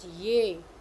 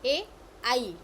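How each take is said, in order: First: The vowel starts with a y glide, 'ye'. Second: The vowel glides from a to i, 'ai'. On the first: The speaker calls it wrong. "Some people pronounce it ye. It is not a ye" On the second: The speaker calls it right. "It is a A I. So A I is the right pronunciation"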